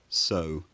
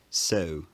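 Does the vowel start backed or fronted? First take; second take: backed; fronted. First: The vowel starts further back. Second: The vowel starts further forward. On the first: "rather than so" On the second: "a bit more of a fronted onset"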